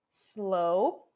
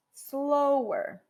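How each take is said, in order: First: Slow pitched low and rising; base form slow. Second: Slower pitched up and falling; comparative slower. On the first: Teacher repeats base form for students: Slow low, rising. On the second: Teacher repeats comparative for students: slower falling. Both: Shown as a demonstration. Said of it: "Se eu quiser falar mais devagar".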